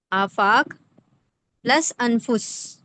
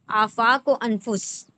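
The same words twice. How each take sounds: First: Afaq, a long pause, then پلس انفس very slowly; slow teaching breakdown of آفاق و انفس; words split apart. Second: Said in the usual way. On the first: Shown as a demonstration.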